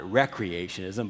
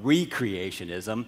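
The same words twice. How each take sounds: First: The word begins with a short 'rek' sound. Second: The word begins with a long 'ree' sound. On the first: It refers to leisure and recreation. The speaker calls it wrong. "not recreationism" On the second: It refers to recreating a past moment. The speaker calls it right. "but recreationism, which is let's go back to a point when everything was perfect and recreate that moment"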